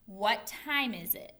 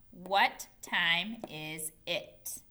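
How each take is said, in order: First: Said in the usual way. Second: Slow, evenly separated words. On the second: Shown as a demonstration. Teacher reads the written question to pupils, word by word. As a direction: give each word its own beat, slowly.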